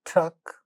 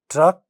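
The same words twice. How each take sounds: First: The first consonant has a puff of air. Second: The first consonant has no puff of air. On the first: "the initial sounds get aspirated" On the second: "without aspiration"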